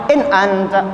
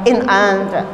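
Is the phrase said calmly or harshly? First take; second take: harshly; harshly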